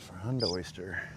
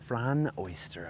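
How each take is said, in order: First: The first word ends with a d sound. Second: The first word ends with an n sound. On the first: The speaker calls it wrong. "I always say frond with a D" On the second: The speaker calls it right. "it's just with an N"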